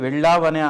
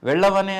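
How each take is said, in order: First: The middle vowel is long. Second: The middle vowel is short. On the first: The speaker calls it right. "వెళ్ళావనే అనాలి" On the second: The speaker calls it wrong. "ఆకారం size తాలూకు difference తెలియదు... అది meaning మారిపోతుంది"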